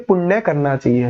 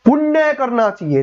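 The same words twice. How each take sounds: First: The word punya is said softly, without force. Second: The word punya is said with strong force. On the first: The speaker calls it right. "प्यार से बोलते हैं" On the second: The speaker calls it wrong. "ये थोड़ी ना बोलते हैं"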